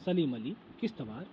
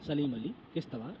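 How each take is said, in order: Both takes have the same delivery.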